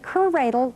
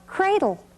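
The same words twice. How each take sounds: First: An extra vowel sounds between the c and r. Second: The c and r blend with no vowel between. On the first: The speaker calls it wrong. "We don't say cradle" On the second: The speaker calls it right. "C R goes cr"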